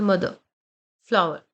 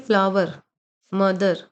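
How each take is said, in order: First: मदर, फ्लावर with the ER reduced to a quick 'uh', no R; quick final schwa. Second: फ्लावर, मदर with the ER fully sounded and a clear R; full final syllable. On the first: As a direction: drop the R and hurry the ending of मदर, फ्लावर. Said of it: "fast बोलना है". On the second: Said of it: "ये तरीका नहीं है". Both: Shown as a demonstration.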